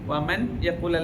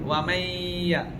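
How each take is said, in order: First: The n is pronounced clearly before the y. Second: The n merges into a nasalized doubled y. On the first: The speaker calls it wrong. "വമൻ യഖുൽ അല്ല" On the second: The speaker calls it right. "മണിച്ച് കൂട്ടിച്ചേർത്ത് ഉച്ചരിക്കണം"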